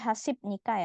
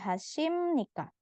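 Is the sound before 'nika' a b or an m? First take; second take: b; m. First: A b sound comes before nika. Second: An m sound comes before nika. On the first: The speaker calls it wrong. "Jangan lagi hasib nikah ya" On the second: The speaker calls it right. "maka dibaca M"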